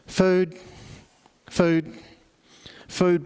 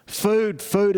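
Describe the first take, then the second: First: Helpless begging. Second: Beggar calling out, pitched higher; louder begging. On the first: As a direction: mutter the plea like a blind man begging. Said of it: "sits there helplessly begging for foods". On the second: Blind beggar calling louder as the crowd passes, raised plea. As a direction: lift the plea over the crowd noise. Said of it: "and so he says louder". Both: Retold or imitated.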